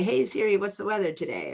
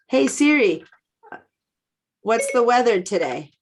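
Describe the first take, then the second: First: It is said very quietly, almost under the breath. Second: It is said at a normal, clear speaking volume. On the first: It is meant not to wake the phone. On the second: It is meant to wake the phone.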